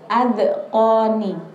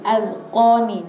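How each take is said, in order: First: The d sound is released with a bouncing echo. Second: The d sound is held without any bounce. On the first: The speaker calls it wrong. "jangan sampai adqoni" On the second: The speaker calls it right. "cukup adqoni"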